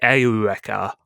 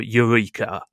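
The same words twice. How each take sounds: First: The name is said with a Japanese pronunciation. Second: The name is said with an English pronunciation. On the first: "they say Eureka" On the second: "I'm going to try and stick to the English pronunciation"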